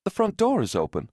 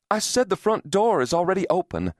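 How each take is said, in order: First: High-pitched, puzzled report; puzzled announcement. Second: High, insistent repeat; insistent repetition. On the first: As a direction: voice lifted high at a puzzling find. Woman first tells husband about door. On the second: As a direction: make the distracted listener take it in. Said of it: "she repeated". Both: A narrator's reading.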